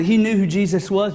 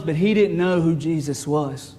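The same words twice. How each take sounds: First: Said in the usual way. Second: Slow, with weight on "know"; stress on know. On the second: Shown as a demonstration. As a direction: lean on "know", drawing it out. Contrast of knew and truly know.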